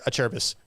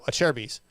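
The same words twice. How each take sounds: First: The first syllable does not sound like 'chair'. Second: The first syllable sounds like the word 'chair'. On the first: The speaker calls it wrong. "He'd say a Cherbis" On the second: The speaker calls it right. "I'd say no, a Cherbis"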